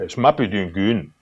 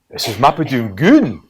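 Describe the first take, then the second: First: It sounds obvious. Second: It sounds surprised.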